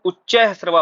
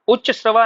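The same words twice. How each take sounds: First: उच्चैः श्रवा with ai after च्च; correct form उच्चैः श्रवा. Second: उच्च श्रवा with a short a ending उच्च; wrong form उच्च श्रवा. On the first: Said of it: "उच्चैः श्रवा होता है". (उच्चैः श्रवा, ऐ की मात्रा के साथ) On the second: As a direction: say उच्च श्रवा without the ai sound. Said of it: "उच्च श्रवा नहीं होता है". (उच्च श्रवा, ऐ की मात्रा के बिना) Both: Shown as a demonstration.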